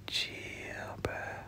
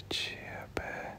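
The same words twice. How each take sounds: The two takes are said the same way.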